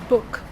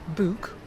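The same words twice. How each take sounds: First: It is said in a southern English accent. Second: It is said in a northern Cheshire accent. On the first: This is how the speaker says it. "and book rather than" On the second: This is how people in Cheshire say it. "which is a certainly a Cheshire kind of thing"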